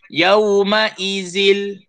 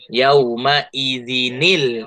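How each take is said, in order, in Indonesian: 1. Perkataan ini berakhir dengan 'zil', tanpa bunyi 'n'. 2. Bunyi 'n' bersambung ke 'l', menjadi 'zinil'. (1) "itu cara bacaan yang salah lah" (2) "diletakkan di situ nun berbaris bawah"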